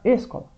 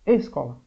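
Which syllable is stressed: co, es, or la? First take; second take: es; es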